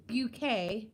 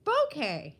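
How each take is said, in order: First: Bouquet said as byoo-KAY, with a y glide after the b; Bouquet, byoo-KAY, stress on the last syllable; first pronunciation. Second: Bouquet said as boh-KAY, an open o and no y glide; Bouquet, boh-KAY, stress on the last syllable; second pronunciation. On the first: Greeting a viewer, trying Bouquet as byoo-KAY. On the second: Greeting a viewer, settling on Bouquet as boh-KAY. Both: Shown as a demonstration. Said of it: "Is it Bouquet or Bouquet?".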